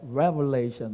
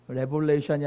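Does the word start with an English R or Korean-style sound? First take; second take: English R; Korean-style. First: It starts with a strong English R sound. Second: It starts with a flat Korean-style consonant. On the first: The speaker calls it right. "뭐 이렇게 해야 되는" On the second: The speaker calls it wrong. "레볼레이션이 아니라"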